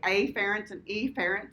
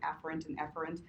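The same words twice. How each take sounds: First: The opening vowels are twanged and exaggerated. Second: The opening vowels are said in a plain way. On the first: "I twang it up and say" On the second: "It's actually"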